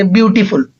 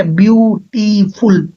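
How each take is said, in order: First: Said in the usual way. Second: "beautiful" slowly split into three beats, byu-ti-ful; syllable by syllable. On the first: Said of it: "For example मैं अगर बोलूँ". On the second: Shown as a demonstration. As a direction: break "beautiful" into separate syllables with small gaps. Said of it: "आप देखो उसमें कितनी बार नीचे जा रहे हैं". ("ब्यूटीफुल" धीरे-धीरे तीन हिस्सों में, ब्यू-टी-फुल)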